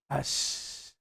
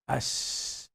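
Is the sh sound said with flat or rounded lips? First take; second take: flat; flat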